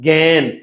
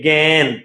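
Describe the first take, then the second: Both takes have the same delivery.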